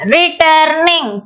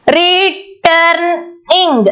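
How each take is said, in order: First: "returning" slowly, its three syllables run together; joined-up syllables. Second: "Returning" very slowly as re, turn, ing; split into syllables. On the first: Teacher repeating the split word, "returning" slow but joined. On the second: Teacher counting three syllables, "Returning" broken up very slowly. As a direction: say "Returning" in three beats with gaps between. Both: Shown as a demonstration. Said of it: "three syllables".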